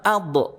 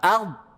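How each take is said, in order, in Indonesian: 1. Konsonan akhir dilepas dengan memantul. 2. Konsonan akhir ditahan tanpa memantul. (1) "bukan ard. Jangan memantul ya" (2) "Tertahan dia"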